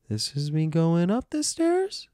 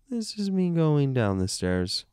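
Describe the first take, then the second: First: Slow climb to a very high STAIRS; slow, playful ascent through the whole phrase; rising pitch. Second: Very high start, sliding down to STAIRS; playful descent through the whole phrase; falling pitch. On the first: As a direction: slide the pitch right up, topping out on "stairs". Voice climbs with the words. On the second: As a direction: slide from the top of the voice down to "stairs". Voice descends with the words. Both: Shown as a demonstration.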